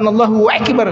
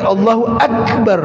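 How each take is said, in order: First: A throaty 'waik' sound replaces the plain 'ak'. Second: Akbar starts with a plain, simple 'ak' sound. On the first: The speaker calls it wrong. "bukan Allahu Akbar" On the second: The speaker calls it right. "tapi Allahu Akbar"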